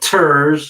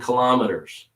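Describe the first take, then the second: First: The t sound is a clear, full t. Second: The t sound becomes a quick soft d. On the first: "Instead of saying" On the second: "I'm changing it into a little D. ... Quick, quickly, as in conversation"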